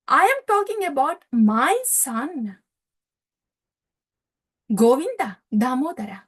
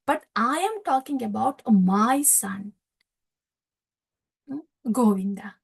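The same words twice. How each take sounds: First: Insistent father. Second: Tender father. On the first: Nanda insists on his son. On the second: Nanda repeats, softer, ending in whisper. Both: Retold or imitated.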